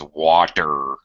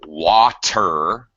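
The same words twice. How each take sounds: First: The middle consonant is a soft flapped D. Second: The middle consonant is a crisp T sound. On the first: "becomes water for an American" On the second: "water for a British person"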